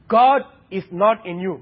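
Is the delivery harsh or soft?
harsh. It is said harshly and forcefully. "don't be harsh"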